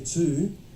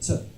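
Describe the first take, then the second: First: The word is said in its full, strong form. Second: The word is said in its weak, reduced form. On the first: The speaker calls it wrong. "I didn't say to" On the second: The speaker calls it right. "I said to"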